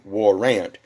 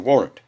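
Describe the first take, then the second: First: The word is split into two separate parts. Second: The word is said quickly as one unit. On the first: "sound out the the, the term part by part" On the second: "people automatically contract it within the sound"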